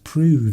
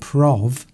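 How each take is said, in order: First: The vowel sounds like 'oo', rhyming with move. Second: The vowel sounds like 'oh', rhyming with stove. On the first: The speaker calls it right. "it's pronounced prove" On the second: The speaker calls it wrong. "isn't pronounced prov"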